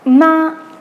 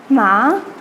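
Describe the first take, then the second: First: The syllable is said with a level pitch. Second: The syllable is said with a changing pitch. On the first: The word means mother. "with the first tone means mother" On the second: The word means horse. "means horse"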